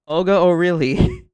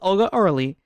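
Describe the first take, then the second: First: The surname sounds like 'oh really'. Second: The surname is said as the short 'Orly'. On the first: The speaker calls it right. "so that's how you pronounce her name" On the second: The speaker calls it wrong. "I thought it was"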